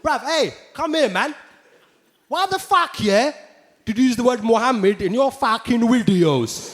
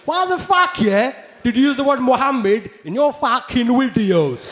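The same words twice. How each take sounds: First: Angry London roadman. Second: High, loud aggressive roadman challenge; angry London roadman. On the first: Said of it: "People were coming up to me". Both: Retold or imitated. Angry fan confronting the comedian, roadman aggression. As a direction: square up like a street lad.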